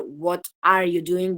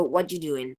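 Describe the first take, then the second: First: Slow "What are you doing?" with ARE fully pronounced; full careful form. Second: "What you doing?" with "are" dropped; reduced form. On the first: Teacher showing what one would say in full, slow distinct "are". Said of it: "en vez de decir". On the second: Teacher showing what she says instead, reduced "what you doing". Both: Shown as a demonstration.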